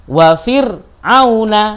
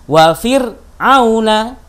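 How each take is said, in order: Both takes have the same delivery.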